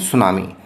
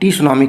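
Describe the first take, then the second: First: The word begins with an s sound. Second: The word begins with a t sound. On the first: The speaker calls it right. "यहाँ टी silent है" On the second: The speaker calls it wrong. "टी सुनामी की जगह"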